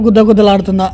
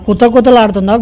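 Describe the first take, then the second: First: గుద్ద గుద్దలాడుతుందా with voiced g and d; misheard gudda-gudda. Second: కుత కుతలాడుతుందా with unvoiced k and t; కుత కుతలాడుతుందా starting on a hard k; kuta-kuta sound. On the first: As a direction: say గుద్ద గుద్దలాడుతుందా as "gud-da", not "ku-ta". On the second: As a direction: say కుత కుతలాడుతుందా with crisp "ku-ta", not "gu-da". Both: Shown as a demonstration. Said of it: "మస్తు doubt అంటే మస్తు doubt".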